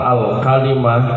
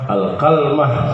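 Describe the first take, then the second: First: It has an a after k and i after l. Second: It has an a after k and no vowel after l. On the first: It is the Hijazi reading. "kafnya di fathah, lamnya di kasrah" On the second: It is a reading of the Tamim tribe. "kafnya di fathah, lamnya disukun"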